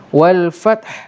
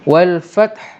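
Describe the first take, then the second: Both takes have the same delivery.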